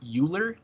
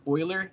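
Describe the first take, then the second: First: The name begins with a 'you' sound. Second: The name does not begin with a 'you' sound. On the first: The speaker calls it wrong. "not Euler, like E W L E R" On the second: The speaker calls it right. "it is pronounced Euler"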